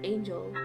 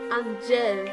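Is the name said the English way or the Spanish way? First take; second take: English; Spanish. First: The name is said with an English pronunciation. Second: The name is said with a Spanish pronunciation. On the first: "regular angel" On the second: "because of the Spanish influence"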